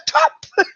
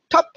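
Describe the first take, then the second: First: It is said in a delighted, excited way. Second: It is said in an even, neutral way. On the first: The behaviour was especially good. "wenn es besonders schön wäre" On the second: The reward marker is given the same way every time. "jedes Mal zu sagen, top, top, top, egal wie der Hund das macht"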